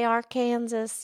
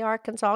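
First: The final s sound is pronounced. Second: The final s sound is left silent. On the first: The speaker calls it wrong. "you don't say Arkansas" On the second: The speaker calls it right. "You say Arkansas"

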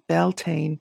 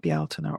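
First: The word is said with an anglicized pronunciation. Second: The word is said with an Irish Gaelic pronunciation. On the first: The speaker calls it wrong. "the Beltane pronunciation is actually an anglicized version" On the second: The speaker calls it right. "people can't say Bealtaine"

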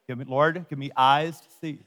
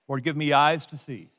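First: The phrase is spoken at a slow pace. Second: The phrase is spoken at a normal pace.

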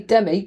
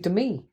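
First: The name is said the English way. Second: The name is said the American way. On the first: "I think English say Demi" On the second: "she is American, so it'd be Demi"

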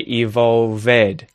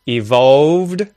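First: The ending adds an extra vowel syllable. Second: The ending is a plain consonant with no vowel. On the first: The speaker calls it wrong. "mispronounce ED endings" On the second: The speaker calls it right. "instead of evolved"

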